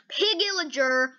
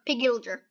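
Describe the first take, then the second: First: "pigillager" drawn out slowly, syllable by syllable; careful tongue twister. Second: "pigillager" rattled off quickly, syllables squashed; quick tongue twister. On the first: Setting viewers a tongue-twister challenge, slow careful "pigillager". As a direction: sound out "pigillager" slowly as one run-together word. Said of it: "try to say pig, pigillager, five times fast". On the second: Trying the tongue twister five times fast, quick squashed "pigillager". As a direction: say "pigillager" fast and lower, slurring the middle. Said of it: "five times fast".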